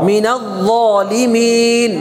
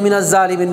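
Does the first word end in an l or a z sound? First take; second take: l; z. First: The l sound is kept before the z. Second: The l is replaced by a doubled z. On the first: The speaker calls it right. "তাহলে মিনাল ল" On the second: The speaker calls it wrong. "মিনাজ জালিম না, আমরা অনেকে মিনাজ জালিমিন বলে"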